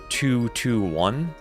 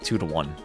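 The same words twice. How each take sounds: First: The middle word 'to' is fully pronounced. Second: The middle word 'to' is reduced to a schwa. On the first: The speaker calls it wrong. "the score is not two to one" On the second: The speaker calls it right. "you basically de-emphasize the pronunciation of the word"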